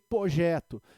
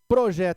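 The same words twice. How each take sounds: First: The R after the P is dropped. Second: The R after the P is pronounced. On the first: "ele tem projeto" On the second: "ele não tem projeto"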